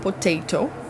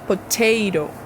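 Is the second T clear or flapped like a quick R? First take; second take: clear; flapped. First: The second T is a clear T sound. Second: The second T is a quick R-like flap. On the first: This is how some other countries say it. "Tem alguns países que falam potato" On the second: This is the American pronunciation. "mas no sotaque americano ... a pronúncia é potato"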